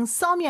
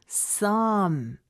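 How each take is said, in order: First: "some이" with a full, plain Korean "sseom" vowel; Korean-style some. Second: "some" drawn out smoothly, like running water; flowing some. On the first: Teacher showing what to avoid, plain "some이". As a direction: say "some이" as a simple Korean syllable. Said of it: "그냥 some이 아니라". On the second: Teacher modelling native speech, flowing "some". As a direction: let "some" flow into a long m. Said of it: "물 흐르듯이". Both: Shown as a demonstration.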